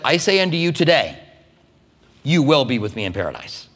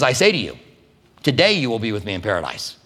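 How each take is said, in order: First: The pause comes after the word today. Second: The pause comes before the word today.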